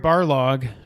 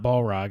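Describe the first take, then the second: First: The name is said as Barlog. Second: The name is said as Balrog. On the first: The speaker calls it right. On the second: The speaker calls it wrong.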